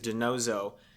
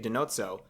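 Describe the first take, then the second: First: The double z is a plain z sound. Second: The double z is a ts sound. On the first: The speaker calls it wrong. "that's just how I said it" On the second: The speaker calls it right. "it should be Denozzo, like pizza, with the little za in there"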